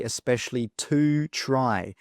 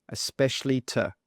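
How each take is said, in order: First: "to" said in full with a clear oo vowel; strong to. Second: "to" softened to a brief tuh after especially; weak to. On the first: Teacher shows learners what not to say, strong to. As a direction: give "to" its full, unreduced too sound. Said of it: "Note how we do not say". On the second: Teacher shows learners how it really sounds, weak to. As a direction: reduce "to" to t plus schwa. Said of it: "it sounds like a t". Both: Shown as a demonstration.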